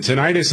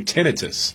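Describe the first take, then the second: First: Tinnitus as tuh-NIGH-tus; tinnitus, middle syllable rhyming with "night"; long-I pronunciation. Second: Tinnitus as TEN-uh-tus; tinnitus, first syllable like "ten", middle unstressed; short-vowel pronunciation. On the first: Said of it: "some people pronounce it". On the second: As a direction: say tinnitus with the stress up front. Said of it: "I hear people say". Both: Shown as a demonstration.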